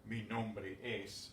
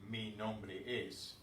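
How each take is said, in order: First: Slow, careful Mi nombre es; slow demo. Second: Slow, spelled-out mi nombre es; slow demo. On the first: Teacher repeating for the class, slow careful demo. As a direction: lay out Mi nombre es slowly, word by word. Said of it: "although literally that is the same thing". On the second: Teacher to class, slow careful demo. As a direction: lay out mi nombre es slowly, word by word. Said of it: "We don't say". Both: Shown as a demonstration.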